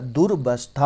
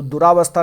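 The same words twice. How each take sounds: First: दुर्वस्था split after a short दुर; correct form. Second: Said in the usual way. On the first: Shown as a demonstration. Teacher answering own question for students, correct form split. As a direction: stress दुर, then वस्था as its own part. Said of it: "क्या होता है". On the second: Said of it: "नहीं होता है".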